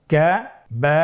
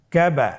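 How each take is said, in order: First: "কা", pause, "বা", each held alone; broken into syllables. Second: "Kaaba" as one unbroken word; syllables joined. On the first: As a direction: split "কা বা" into two separate chanted syllables. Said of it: "ভেঙে ভেঙে পড়ব". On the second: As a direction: run "কা" straight into "বা" with no pause. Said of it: "একসাথে বলতে হবে". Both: Shown as a demonstration.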